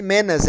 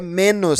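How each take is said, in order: First: "menos" said as "menas", the wrong form. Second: "menos" said properly with a final "os"; correct form. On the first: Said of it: "Não é men-, não existe". ("menos" dito errado como "menas") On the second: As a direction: say "menos" the right way, ending in "os". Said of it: "não existe menas, é menos". ("menos" dito corretamente, terminando em "os") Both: Shown as a demonstration.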